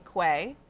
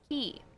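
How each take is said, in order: First: The word ends with an 'ay' vowel. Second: The word ends with an 'ee' vowel. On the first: The speaker calls it wrong. "It looks like it should be quay. It has an A and a Y, which is an A sound" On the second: The speaker calls it right. "apparently, this shit's pronounced key"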